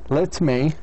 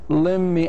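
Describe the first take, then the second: First: Both words are said fully and separately. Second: The words are blended into one reduced form.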